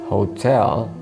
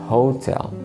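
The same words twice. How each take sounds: No difference in how they are said.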